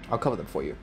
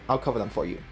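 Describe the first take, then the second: No difference in how they are said.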